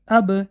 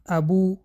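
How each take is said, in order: First: The b ends with no added vowel. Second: The b is followed by an added u vowel. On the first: The speaker calls it right. "بلکه اب" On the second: The speaker calls it wrong. "ابو، ابی نه"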